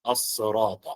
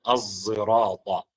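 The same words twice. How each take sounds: First: It begins with an emphatic s sound. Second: It begins with an s blended toward z. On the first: "بالصاد" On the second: "بالإشمام"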